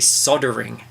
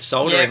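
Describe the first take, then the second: First: The L sound is dropped entirely. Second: The L sound is clearly pronounced.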